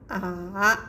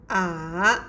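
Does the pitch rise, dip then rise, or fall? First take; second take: dipping; dipping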